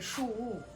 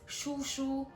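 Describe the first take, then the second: First: The second syllable begins with a soft w. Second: The second syllable begins with a clear sh. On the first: "when he speaks fast, I hear shu wu" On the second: "He says shu shu"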